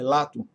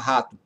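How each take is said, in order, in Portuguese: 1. A palavra começa com som de L. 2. A palavra começa com som de R. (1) "é lato" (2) "eles não vão conseguir falar rato"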